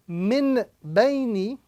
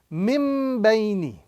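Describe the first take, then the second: First: The first word ends with a clear n sound. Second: The first word ends with an m sound. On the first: The speaker calls it wrong. "instead of saying Min Baini" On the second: The speaker calls it right. "we are now going to be reciting Mim Baini"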